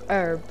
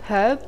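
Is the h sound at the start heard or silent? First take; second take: silent; heard. First: The word begins with no h sound. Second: The word begins with an audible h sound. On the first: "variation two, herb, where you don't hear the H" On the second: "variation one, herb, which you actually hear the H"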